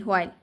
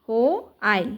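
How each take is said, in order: First: Said in the usual way. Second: "হো, আইল" split in two with a pause; teacher breaking the word into "হো" and "আইল"; sounding out syllables. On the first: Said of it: "তাহলে হোয়াইল হচ্ছে". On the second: Shown as a demonstration. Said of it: "উচ্চারণটা কি?".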